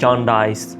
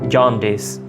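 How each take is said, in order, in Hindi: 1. आखिरी अक्षर में लंबा 'eye' स्वर है। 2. आखिरी अक्षर में छोटा 'ih' स्वर है। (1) "इसको प्रोनाउंस करते हैं जॉन्डाइस, लेकिन डाइस नहीं है" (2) "डिस है"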